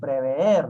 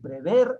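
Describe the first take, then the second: First: The final e is drawn out as two vowels. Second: The final e is a single short vowel. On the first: The speaker calls it wrong. "han escuchado un vulgarismo. Prever, no es" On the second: The speaker calls it right. "Pero prever, nada más"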